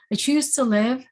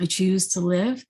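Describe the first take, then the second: First: A defiant rising cry of resolve; fierce resolve. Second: Said in the usual way. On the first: Retold or imitated. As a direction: CHOOSE rises higher and louder as she repeats it. Repeated resolve, louder take.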